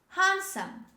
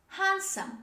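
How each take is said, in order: No difference in how they are said.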